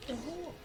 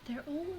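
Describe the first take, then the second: No difference in how they are said.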